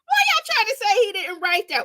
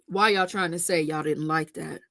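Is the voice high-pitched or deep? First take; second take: high-pitched; deep. First: It is said in a high-pitched voice. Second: It is said in a deep voice.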